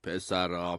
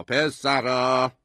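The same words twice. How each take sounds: First: Said in the usual way. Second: Louder, drawn-out call; calling for attention. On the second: A narrator's reading. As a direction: call the boys to order, stretching the word. Father raises call for order.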